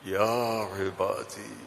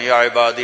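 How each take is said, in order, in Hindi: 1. यह कोमल, स्नेह भरे लहजे में कहा गया है। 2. यह औपचारिक, पाठ जैसे लहजे में कहा गया है। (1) "जिसकी मोहब्बत भी लामहदूद है" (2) "जैसे ये हमारे कारी पढ़ते हैं ... ये नहीं है"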